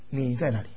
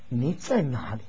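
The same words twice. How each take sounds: First: It sounds like a casual, offhand question. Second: It sounds like a rebuking, reproachful question. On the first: The asker is just passing time. "是随便的这个度过时间的问" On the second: The asker is scolding the listener. "是责备的问呢"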